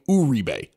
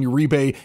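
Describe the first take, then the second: First: The name is said with a Spanish pronunciation. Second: The name is said with an anglicized pronunciation. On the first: The speaker calls it right. "that's how you're supposed to pronounce it" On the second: The speaker calls it wrong. "We've always known him as Juan Uribe"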